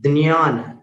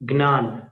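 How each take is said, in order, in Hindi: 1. यह संयुक्त ध्वनि d के बाद ny जैसी लगती है। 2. यह संयुक्त ध्वनि g के बाद n जैसी लगती है। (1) "मराठी में ज्ञान बोलते हैं, द और ञ। द न" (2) "गुजरात में ज्ञान बोलते हैं, ज्ञान, ग और न।"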